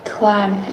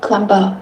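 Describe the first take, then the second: First: The word ends on m with no b sound. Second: A b sound is pronounced at the end. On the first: The speaker calls it right. "It's just climb" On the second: The speaker calls it wrong. "you don't pronounce it climber"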